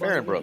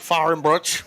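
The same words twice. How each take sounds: First: It is said with a plain American accent. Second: It is said with a German accent.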